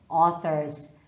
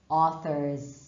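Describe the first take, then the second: The two takes are said the same way.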